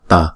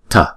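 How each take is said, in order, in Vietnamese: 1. T là t thường, đầu lưỡi gần răng. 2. T là t bật hơi, gần giống 'th'. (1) "Chúng ta để cái lưỡi gần cái răng đọc là tờ" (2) "người ngoại quốc người ta đọc chữ T này là tờ"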